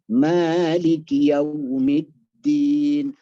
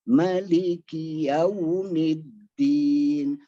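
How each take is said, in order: First: The first vowel lasts two beats. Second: The first vowel lasts one beat. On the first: "Ya dua harokat, jangan lebih" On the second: "Kalau tidak pakai alif, ... Satu harokat"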